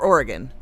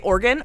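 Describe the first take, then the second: First: The word is said with three syllables. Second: The word is said with two syllables. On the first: "or three syllable" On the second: "like as a two syllable"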